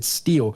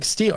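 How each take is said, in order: First: Said in the usual way. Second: High, sharp game prompt. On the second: Retold or imitated. Reading out the game's steal prompt, high and sharp.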